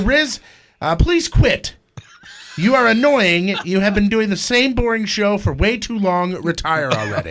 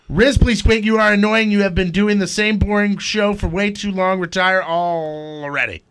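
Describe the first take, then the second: First: It is read with pauses between sentences. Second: It is run together without any pauses.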